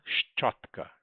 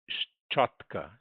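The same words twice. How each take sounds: First: Whispered. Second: Said in the usual way. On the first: Shown as a demonstration. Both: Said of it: "teacher repeats word twice".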